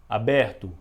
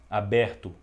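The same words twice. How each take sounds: The two takes are said the same way.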